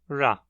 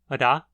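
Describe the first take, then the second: First: The r is a smooth alveolar approximant. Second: The r is a single alveolar tap. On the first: "a aproximante alveolar" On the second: "o tap alveolar"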